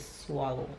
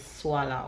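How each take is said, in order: First: It is said with a standard English pronunciation. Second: It is said with a Jamaican Patois pronunciation. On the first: "We don't say swallow" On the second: "in patois, it is swallow"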